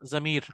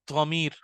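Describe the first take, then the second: First: The word begins with a plain z sound. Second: The word begins with a heavy dh-like sound. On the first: "pronoun को अरबी में कहते हैं जमीर" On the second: "ध्वत से भी कह सकते हैं आप"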